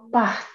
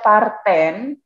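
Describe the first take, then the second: First: The word ends right after 'part'. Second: A vowel ending is sounded after 'part'. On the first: The speaker calls it right. "Ent pada akhiran il, el, jamak ini tidak dibaca" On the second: The speaker calls it wrong. "jangan dibaca parten atau partong"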